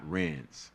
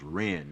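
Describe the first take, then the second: First: The name ends with an s sound. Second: The name ends without an s sound. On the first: The speaker calls it wrong. "not Ren's" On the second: The speaker calls it right. "it's pronounced Ren"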